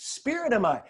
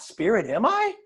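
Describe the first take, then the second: First: SPIRIT AM I as a settled statement, falling; statement, not question. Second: "Spirit am I?" rising sharply at the end; questioning. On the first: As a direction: affirm "Spirit am I" with a falling end. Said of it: "Not "Spirit am I?". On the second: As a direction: ask "Spirit am I" doubtfully, tune climbing on I. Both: Shown as a demonstration.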